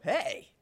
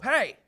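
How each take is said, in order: First: It sounds happy and excited. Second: It sounds grouchy and annoyed.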